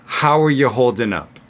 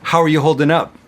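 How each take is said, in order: First: The sentence is said at a medium pace. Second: The sentence is said at a fast pace. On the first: "Medium fast" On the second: "really fast"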